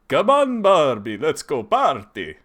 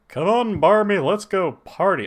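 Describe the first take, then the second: First: It is said in a Dracula voice. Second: It is said in a Hank Hill voice.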